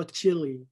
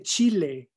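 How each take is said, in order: First: "Chile" as English CHILL-ee; anglicized pronunciation. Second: Said in the usual way. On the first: Shown as a demonstration. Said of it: "no Chile". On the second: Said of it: "Se dice Chile".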